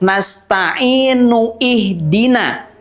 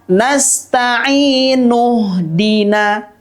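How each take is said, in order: First: The initial vowel of ihdina is pronounced separately. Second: The initial vowel is dropped, linking straight to dina. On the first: The speaker calls it wrong. "bunyinya tidak nasta'inu ihdina" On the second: The speaker calls it right. "tetapi bacanya adalah nasta'inu dina"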